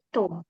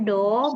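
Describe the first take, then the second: First: The first consonant falls between D and T. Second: The first consonant is a clear D sound. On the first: The speaker calls it right. "tapi to, antara D sama T" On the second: The speaker calls it wrong. "Bukan do"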